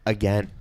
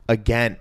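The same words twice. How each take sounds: The two takes are said the same way.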